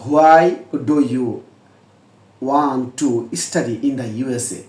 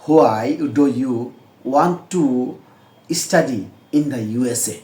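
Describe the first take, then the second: The two takes are said the same way.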